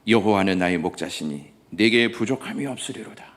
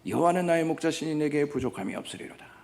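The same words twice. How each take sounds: First: It is recited slowly and quietly. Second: It is recited at a brisker, polished pace. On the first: It is heartfelt and moves listeners to tears. "지그시 눈을 감고 천천히 낭송하기 시작했습니다" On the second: It is a skilled performance that earns applause. "참으로 맑고 아름다운 목소리로 낭송하였습니다"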